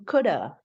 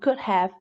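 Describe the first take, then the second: First: The word 'have' is reduced to 'uh'. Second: The word 'have' is said in full.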